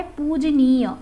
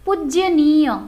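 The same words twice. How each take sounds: First: पूजनीय said carefully at the end; correct pronunciation. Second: पूजनीय said loud and falling, the wrong way; the incorrect पूजनीय; wrong pronunciation. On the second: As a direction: show the mistaken पूजनीय. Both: Shown as a demonstration. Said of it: "इसका शुद्ध रूप होता है".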